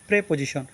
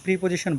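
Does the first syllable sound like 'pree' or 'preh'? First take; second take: preh; pree. First: The first syllable has an 'eh' vowel. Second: The first syllable has an 'ee' vowel. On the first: The speaker calls it right. "সঠিক উচ্চারণ হবে প্রেপোজিশন" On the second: The speaker calls it wrong. "অনেকে ভুলবশত প্রিপোজিশন বলেন"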